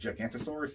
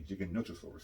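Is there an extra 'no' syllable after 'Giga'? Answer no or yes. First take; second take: no; yes. First: The name is said without a 'no' syllable. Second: The name is said with a 'no' syllable. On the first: The speaker calls it wrong. "people often mispronounce as Gigantosaurus" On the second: The speaker calls it right. "It's actually Giganotosaurus"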